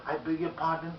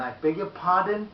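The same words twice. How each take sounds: First: Level, moderate "I beg your pardon"; polite query without raising the tone; not high-toned. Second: Raised, loud "pardon"; high-pitched, forceful polite query. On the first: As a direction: keep "pardon" down at a normal volume. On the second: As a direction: say it high, pushing "pardon" out loudly. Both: Shown as a demonstration. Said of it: "Not in a high tone".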